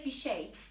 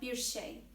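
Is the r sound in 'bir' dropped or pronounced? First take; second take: dropped; pronounced. First: The r sound at the end of 'bir' is dropped. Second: The r sound at the end of 'bir' is pronounced. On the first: This is everyday casual speech. "We say bir şey instead of" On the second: This follows the written form. "instead of bir şey"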